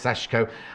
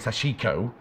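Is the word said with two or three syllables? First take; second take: two; three. First: It is said with two syllables, middle vowel dropped. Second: It is said with three full syllables. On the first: The speaker calls it right. "no, it's Seshco" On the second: The speaker calls it wrong. "I was saying it wrong"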